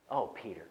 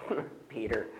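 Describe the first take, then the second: First: Gentle, not scolding. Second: Mocking with a laugh. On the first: Retold or imitated. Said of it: "I don't think he said it in a scolding way". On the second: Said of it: "we turn it and go".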